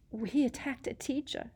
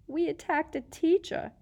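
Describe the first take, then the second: First: Put-on high, frightened girl; shocked and scared; whimpering. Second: Higher, panicky whimper; rising panic. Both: A narrator's reading. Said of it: "Hermione whimpered".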